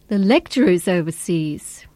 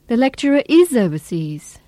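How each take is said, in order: First: The word lecturer carries the main stress. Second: The word is carries the main stress. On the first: It is the lecturer, not the tutor or supervisor. "Here, lecturer is the tonic" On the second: The person really is away abroad. "Here, is the tonic"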